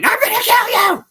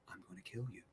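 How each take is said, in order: First: It is said in an aggressive, shouting way. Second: It is said in a calm, quiet way.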